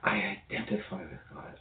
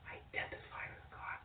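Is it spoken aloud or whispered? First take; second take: aloud; whispered. First: It is spoken aloud in a normal voice. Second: It is whispered without full voice.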